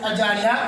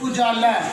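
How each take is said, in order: First: The first vowel is not a 'u' sound. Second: The first vowel is a 'u' sound. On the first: The speaker calls it wrong. "गलत है" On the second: The speaker calls it right. "अलिफ के ऊपर पेश आएगी, उजाला सही है"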